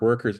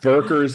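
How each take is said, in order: First: The word begins with a W sound. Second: The word begins with a V sound.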